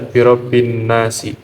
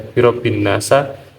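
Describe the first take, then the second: First: The last word ends with an 'i' vowel. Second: The last word ends with an 'a' vowel. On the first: The speaker calls it right. "harus dibaca birobin nasi" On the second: The speaker calls it wrong. "tidak bisa dibaca birobin nasa"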